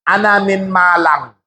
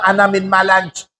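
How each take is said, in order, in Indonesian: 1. Kata terakhir berakhir dengan bunyi ng. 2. Kata terakhir berakhir dengan bunyi j. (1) "Ketika kalian mengucapkan ana min Malang"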